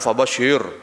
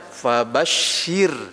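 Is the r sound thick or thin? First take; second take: thick; thin. First: The final r is pronounced thick and heavy. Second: The final r is pronounced thin and light. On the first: The speaker calls it wrong. "Jangan fabashir" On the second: The speaker calls it right. "Maka dia bacanya fabashir"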